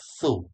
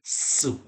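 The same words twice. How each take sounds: First: It starts with a 'th' sound, tongue between teeth. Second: It starts with an 's' sound, tongue behind teeth. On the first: The speaker calls it right. "langsung digigit ya" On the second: The speaker calls it wrong. "bukan su"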